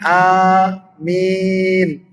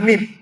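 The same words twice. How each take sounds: First: Both vowels are drawn out long. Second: Both vowels are cut short. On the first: The speaker calls it right. "A-nya dipanjangkan amin. Ya-nya juga dipanjangkan" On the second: The speaker calls it wrong. "Bukan amin"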